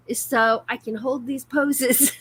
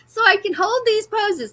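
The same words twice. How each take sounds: First: Said in the usual way. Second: Higher, laughing through it; giggling at her own line. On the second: Real, not acted. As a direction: crack up while repeating it.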